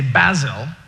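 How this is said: It is said in a British accent.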